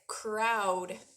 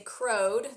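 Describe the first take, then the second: First: The vowel is an 'ow' sound. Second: The vowel is a long 'oh' sound. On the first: The speaker calls it right. "sometimes O W says ow, like crowd" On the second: The speaker calls it wrong. "You wouldn't say crowed"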